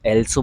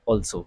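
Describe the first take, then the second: First: The word begins with an 'eh' vowel. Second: The word begins with an 'aw' vowel. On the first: The speaker calls it wrong. "कुछ लोग एल्सो बोल देते हैं" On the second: The speaker calls it right. "सही उच्चारण जो है वो है ऑल्सो"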